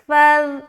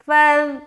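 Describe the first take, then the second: The two takes are said the same way.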